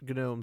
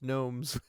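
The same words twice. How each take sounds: First: The initial G sound is pronounced. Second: The initial G sound is silent. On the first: The speaker calls it wrong. "They're not gnomes" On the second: The speaker calls it right. "They're just gnomes. The G's silent"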